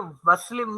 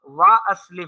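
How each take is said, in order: First: Wa runs straight into the verb without a stop. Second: A glottal stop separates wa from the verb. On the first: The speaker calls it wrong. "नहीं पढ़ा जाएगा" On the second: The speaker calls it right. "वाव को अलग पढ़ूँगा और अस्लिम का हमज़ा मैं अलग से पढ़ूँगा"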